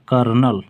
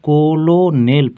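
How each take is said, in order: First: It is said as kur-nel, without the L. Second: It is said as spelled, ko-lo-nel. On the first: The speaker calls it right. "लेकिन इसको पढ़ा जाता है कर्नल" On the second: The speaker calls it wrong. "ऐसे हम लोग कोलोनेल पढ़ेंगे"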